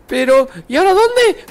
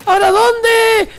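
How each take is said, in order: First: Said in the usual way. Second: High, slow frustrated yell; exasperated shout. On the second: Real, not acted. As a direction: shout it out, lost and fed up. Frustrated gamer searching.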